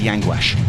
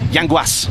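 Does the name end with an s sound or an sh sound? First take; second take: sh; s. First: The name ends with an sh sound. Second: The name ends with an s sound. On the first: The speaker calls it wrong. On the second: The speaker calls it right.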